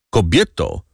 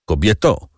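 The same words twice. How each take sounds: First: Kobieto repeated, settling down with a falling end; a second mild call that drops at the end. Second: A mild called-out Kobieto with a rising end; calling out. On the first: Kadrus calls his wife again, falling, mildly raised. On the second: Kadrus calls out to his wife, mildly raised, rising. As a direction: lightly call her name, rising. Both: A narrator's reading. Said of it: "zawołał Kadrus".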